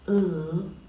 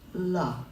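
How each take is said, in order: First: The consonant is held alone with no vowel. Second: The consonant ends with an added uh vowel. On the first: The speaker calls it right. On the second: The speaker calls it wrong.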